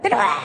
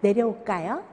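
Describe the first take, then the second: First: It is shouted harshly, like an angry command. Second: It is said gently, like a soft request.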